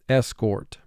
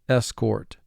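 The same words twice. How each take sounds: The two takes are said the same way.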